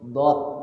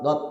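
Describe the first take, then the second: First: The sound starts after a held buildup. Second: The sound starts abruptly with no buildup. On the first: The speaker calls it right. "dikumpulkan dulu tuh lidah kita. Dot gitu" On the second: The speaker calls it wrong. "Jangan langsung dot dot, jangan begitu"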